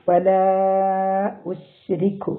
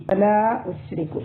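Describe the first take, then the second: First: "വലാ ഉശ്രിക്കു" with the aa of "വലാ" held four counts; four-count madd. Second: Said in the usual way. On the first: Shown as a demonstration. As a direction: stretch "വലാ" long before "ഉശ്രിക്കു". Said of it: "four count നീട്ടിയിട്ട്". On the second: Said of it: "ലാമിനൊരു അലിഫ് മദ് ഉണ്ട്".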